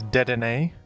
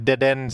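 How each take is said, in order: First: The name is said in its official form. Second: The name sounds like the phrase dead end. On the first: "the official pronunciation of this Pokemon is Dedenne" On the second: "I just simply think dead end sounds better. It sounds like dead end"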